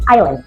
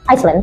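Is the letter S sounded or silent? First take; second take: silent; sounded. First: The S sound is left silent. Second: The S sound is pronounced. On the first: The speaker calls it right. "tapi island" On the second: The speaker calls it wrong. "kita tidak mengatakan Iceland"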